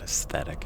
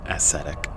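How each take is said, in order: First: "aesthetic" with a th sound in the middle; quiet "aesthetic", es-THET-ik; wrong word shown. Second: "ascetic" with an s sound, no th; quiet "ascetic", S in place of TH; corrected pronunciation. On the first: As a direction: say "aesthetic" softly, keeping the TH. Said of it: "it's ascetic". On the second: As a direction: say "ascetic" softly as uh-SET-ik. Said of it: "There isn't a T H in that word". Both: Shown as a demonstration.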